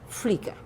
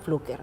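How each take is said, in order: First: The surname is said with an 'i' vowel. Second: The surname is said with a 'u' vowel. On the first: This is how the family name is really pronounced. "Y es Flicker" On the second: This is how local friends commonly say the name. "para los lambayecanos"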